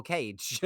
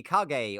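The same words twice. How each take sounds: First: Cage as one syllable, like a bird cage; one-syllable reading. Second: Kage said as "kah-gay"; two-syllable reading. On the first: Asking which name is right, Cage in one syllable. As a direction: say Cage to rhyme with age. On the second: Asking which name is right, Kage as "kah-gay". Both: Shown as a demonstration. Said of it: "calling me Kage or Cage".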